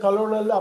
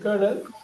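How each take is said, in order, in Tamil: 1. இது மூன்று அசைகளாக சொல்லப்படுகிறது, ka-lo-nel. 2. இது இரண்டு அசைகளாக சொல்லப்படுகிறது, ker-nel. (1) "அப்படிலாம் படிச்சிடக்கூடாது" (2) "கர்னல்னு சொல்லுவாங்க"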